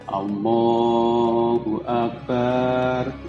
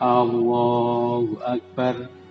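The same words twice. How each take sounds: First: The bar syllable is drawn out long. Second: The first A sound is drawn out long. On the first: It changes the meaning to drums. "Barnya panjang" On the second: It turns the phrase into a question about God's greatness. "A-nya panjang"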